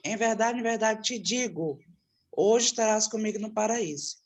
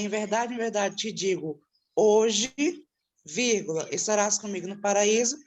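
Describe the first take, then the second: First: There is a pause before 'hoje'. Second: There is a pause after 'hoje'.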